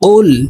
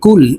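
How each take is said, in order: First: It starts with a deep q from the tongue root. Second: It starts with a plain front k sound. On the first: The speaker calls it right. "অফের উচ্চারণ জিহ্বার গোড়া থেকে উচ্চারণ করতে হবে" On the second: The speaker calls it wrong. "আমরা অনেকে কুল এভাবে বলে থাকি"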